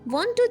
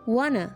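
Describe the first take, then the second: First: Both words are said fully and separately. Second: The words blend into one reduced form.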